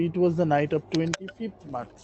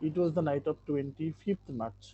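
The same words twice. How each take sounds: First: Very slow, every word spaced out for the class; slow model reading. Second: Very slow again but softer, each word spaced; slow repeat, softer. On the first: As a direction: read the line slowly so students can follow. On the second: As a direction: repeat it slowly and more gently. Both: Shown as a demonstration. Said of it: "প্রথম লাইনটা ছিল যে".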